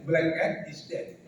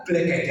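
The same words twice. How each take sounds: First: Slow, careful English on black cat is dead; correct English pronunciation. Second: Black cat with a thick Javanese accent; Javanese-accented English. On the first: Teacher modelling the right way, careful English pronunciation of black cat is dead. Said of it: "kucing hitam mati yang betul". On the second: Teacher mocking Javanese speakers' English, Javanese accent. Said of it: "kalau kita orang Jawa bahasa Inggris". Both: Shown as a demonstration.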